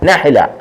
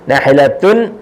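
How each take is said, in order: First: The word ends on a plain a sound. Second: The word ends with an added -atun syllable. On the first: The speaker calls it right. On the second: The speaker calls it wrong.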